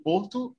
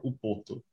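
First: "Porto" said as the bare name, no leading O; name without article. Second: "O Porto" with a leading O vowel before Porto; name with article. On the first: Host asking guest the city's name, "Porto" without the O. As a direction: say "Porto" in two syllables, starting on the P. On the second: Host asking guest the city's name, "O Porto" with leading O. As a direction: say "O Porto" as one name, opening on the O. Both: Shown as a demonstration. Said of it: "do you call it".

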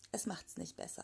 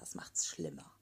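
First: Soft and low. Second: Whispered schlimmer, breathy and low. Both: Real, not acted.

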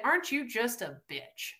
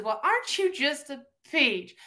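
First: Quieter deadpan translation of the sweet insult; insult unveiled. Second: Raised-pitch mock-sweet Southern quote; sweetly insulting. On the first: Acted. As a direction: drop the sweetness and state the real meaning. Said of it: "They said". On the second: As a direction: coo a veiled Southern insult. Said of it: "They said, "Aren't you just a bitch?".

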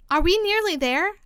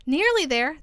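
First: Higher, lightly acted panted question; panting question. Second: Exclaimed echo of the question; echoing back. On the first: Alice asking the Queen mid-run, mildly panting. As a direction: plead it as a question, only a touch winded. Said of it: "managed to pant out at last". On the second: Queen repeating Alice's question, echoing it back. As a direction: throw the words back, a little raised. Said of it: "the queen repeated". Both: A narrator's reading.

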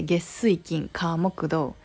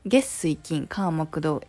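First: Weekdays "月水金火木土" in Kansai pitch; Kansai intonation. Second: "月水金火木土" in standard Tokyo pitch; standard Japanese intonation. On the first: Demoing the Kansai way to a listener, Kansai lilt. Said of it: "in 関西弁, we say". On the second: Contrasting with Kansai for listeners, standard pitch. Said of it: "But in normal Japanese". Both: Shown as a demonstration.

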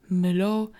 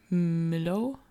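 First: Louder, startled question, understated fear; quaking with fear. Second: Drawn-out, hesitant question, rising at the end; trembling. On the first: Katharina questions the dead dog's return, mildly fearful. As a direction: repeat the name in startled disbelief. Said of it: "Katharinas Stimme bebte vor Angst". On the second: André sees his dead dog, hesitant and trembling. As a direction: bring the name out haltingly, mildly shaken. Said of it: "brachte André zitternd heraus". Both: A narrator's reading.

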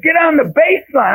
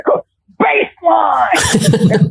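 First: Raised-pitch coach's order; Coach Carter. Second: High, long-drawn coach's call; Coach Carter. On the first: New coach orders kids at first practice, imitating a movie coach. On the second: New coach calls to unmoving kids, drawn-out mock movie-coach yell. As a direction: stretch the order out like a movie coach. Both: Retold or imitated. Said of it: "trying to be like Coach Carter".

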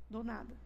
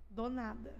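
No difference in how they are said.

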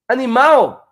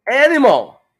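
First: Said in the usual way. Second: "animal" said the English way, AN-i-mul; "animal" with an English stress on the first syllable and a dark final L; English pronunciation. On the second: Shown as a demonstration. Teacher showing viewers English "animal". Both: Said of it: "no inglês também vai ter al".

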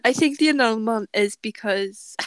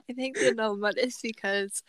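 First: A touch of Welsh lilt; accidentally Welsh-sounding; Welsh accent. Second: Said in the usual way. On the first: Real, not acted. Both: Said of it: "I sounded really Welsh there".

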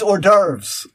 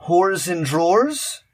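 First: "hors d'oeuvres" said as "or-DERVS"; correct pronunciation. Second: "Whores and drawers" read slowly as English, for hors d'oeuvres; mispronounced French.

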